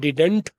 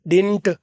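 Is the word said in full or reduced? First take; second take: full; reduced. First: The word is said in full, with both syllables. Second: The word is reduced to one short syllable. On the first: This is the form more common in Asia. "जो strong है वो हमारी तरफ, Asia के तरफ यहाँ ज़्यादा बोला जाता है" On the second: This is the form native speakers mostly use. "गोरे उसको ज़्यादातर वीक बोलते हैं"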